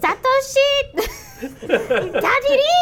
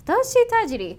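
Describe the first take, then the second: First: It is said in a Pikachu voice. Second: It is said in her normal voice.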